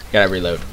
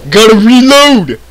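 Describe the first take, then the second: First: Said in the usual way. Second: High, drawn-out game-character call; Coach. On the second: Retold or imitated. Player catches himself sounding like a game character, high drawn-out yell. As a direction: belt it out higher and slower, like a game character. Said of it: "Why am I sounding like Coach?".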